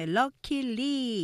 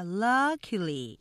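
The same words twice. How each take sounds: First: "luckily" in three equal beats, luck-i-ly; three even syllables. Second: "Luckily" with a loud, long LUCK; stress on first syllable. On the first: Teacher showing learners' usual way, "luckily" evenly in three syllables. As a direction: give every syllable of "luckily" the same weight. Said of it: "이렇게 보통 삼음절은 같이 맞는데". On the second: Teacher modelling strong-weak-weak, "Luckily" stressed on LUCK. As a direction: punch LUCK, then light i-ly. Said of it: "앞에 액센트 강조". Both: Shown as a demonstration.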